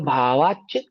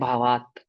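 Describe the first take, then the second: First: The word ends with a 'ch' sound. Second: The word ends with a plain 't' sound. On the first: The words are joined as in recitation. "जब उच्चारण करते हैं तब संधि विच्छेद नहीं करते" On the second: The joined words are split apart. "जब संधि विच्छेद करेंगे तो तो ता पढ़ेंगे"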